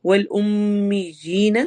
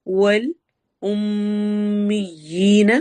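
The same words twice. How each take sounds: First: والامیین slow with the meem held and a rising end; sung recitation of والامیین. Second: والامیین stretched very slowly, the doubled meem held; drawn-out chanted والامیین; slow recitation. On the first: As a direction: glide through والامیین, meem doubled. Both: Shown as a demonstration. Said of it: "ام میں میم پر".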